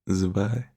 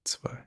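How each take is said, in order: First: The word starts with a soft z sound. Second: The word starts with a sharp ts sound. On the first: The speaker calls it wrong. "a lot of people say zwei because that's what they're used to, but it's not the correct pronunciation" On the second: The speaker calls it right. "they um, pronounce their Z's very harshly. So that is how, why it is zwei"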